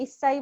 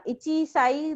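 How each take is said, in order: First: "issai" with a double s replacing chi; correct contracted pronunciation. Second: "ichi sai" with the chi syllable kept; uncontracted pronunciation. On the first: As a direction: hold the s in "issai". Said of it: "issai बोलते हैं". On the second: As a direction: say "ichi sai" as two words, chi intact. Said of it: "नहीं बोलते हैं". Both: Shown as a demonstration.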